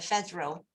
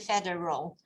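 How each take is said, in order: First: The D and R are run together. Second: The D and R are kept separate. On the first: "sometimes American would put them together" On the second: "most of the people, they say federal"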